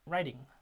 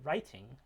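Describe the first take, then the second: First: The middle t is a quick flap. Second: The middle t is a clear t. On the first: "we could transcribe that as the flap" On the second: "actually pronounce that T ... Like in Britain"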